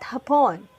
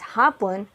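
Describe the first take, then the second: First: The stress falls on the last syllable. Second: The stress falls on the first syllable. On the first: It refers to the Japanese people. The speaker calls it wrong. "not hapon" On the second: It means afternoon. The speaker calls it right. "This is pronounced as hapon"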